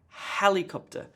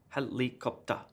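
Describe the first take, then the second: First: The first syllable is stressed, others weaker. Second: All syllables get equal stress. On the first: The speaker calls it right. "emphasis on the first syllable" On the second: The speaker calls it wrong. "let me just try to do it with even stress on each of the syllables"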